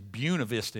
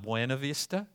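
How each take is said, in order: First: The name is said the local Georgia way. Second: The name is said the general, non-local way. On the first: This is how locals say the name. The speaker calls it right. "It is Buena Vista in Georgia" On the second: This is how outsiders say the name. The speaker calls it wrong. "It's not Buena Vista"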